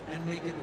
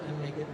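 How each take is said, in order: Both takes have the same delivery.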